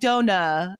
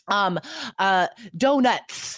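First: The final T and S sounds are dropped. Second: The final T and S sounds are pronounced. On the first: The speaker calls it wrong. "A lot of students will just be like dona and like not even say the T, let alone the S" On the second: The speaker calls it right. "there's like a T and an S"

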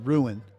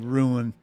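First: The word is said as two syllables. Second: The word is said as one syllable. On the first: "she says two syllables" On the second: "I kind of say one syllable"

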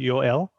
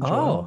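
First: The name begins with a Y sound. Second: The name begins with a J sound. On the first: This is how the family says the name. "like we would pronounce it Yoel" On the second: This is the usual English way to say the name. "rather than Joel"

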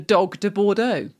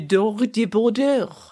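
First: It is said with a plain English accent. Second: It is said with a put-on French accent. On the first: "literally as it looks" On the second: "if you were trying to do French"

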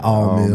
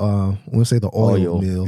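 First: The vowel in 'oil' is a flat 'ah'. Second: The vowel in 'oil' is a gliding 'oy'. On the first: "The all mill" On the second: "we don't say the oil mill"

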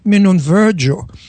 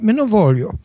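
First: It is said in a French-sounding Genovese accent. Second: It is said in standard Italian.

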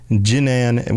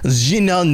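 First: The name is said with a plain English pronunciation. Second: The name is said with a French-sounding pronunciation. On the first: The speaker calls it wrong. "which I feel like we're mispronouncing that" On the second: The speaker calls it right. "I feel like it's almost French or something"

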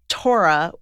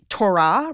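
First: The stress falls on the first syllable. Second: The stress falls on the second syllable. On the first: This is the assimilated American way of saying it. "which is like the like very, very, very assimilated way of saying it. It's like saying like Florida" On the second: This is the Hebrew way of saying it. "like Hebrew with the emphasis on the second syllable"

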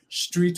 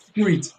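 First: It starts with a plain 'str' sound. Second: It starts with 'skr', as in Gullah Geechee.

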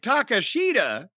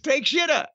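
First: The name begins with the syllables 'ta-ka'. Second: The name begins with the English word 'take'. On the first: This is how the name is actually said. "now they're saying it Takashita" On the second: This is a first-time English reading of the spelling. "if you read it with English eyes for the first time"

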